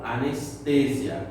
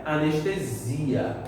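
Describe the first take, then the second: First: Anestesia with the stress on "te", slowly; Spanish anestesia. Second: Anestesia with the stress on "si" and a Portuguese "esh" sound. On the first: Teacher giving the Spanish form to students, Spanish pronunciation. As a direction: say anestesia the Spanish way, "a-nes-TE-sia". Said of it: "Em espanhol". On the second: Teacher giving the Portuguese form to students, Portuguese pronunciation. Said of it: "Em português é". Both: Shown as a demonstration.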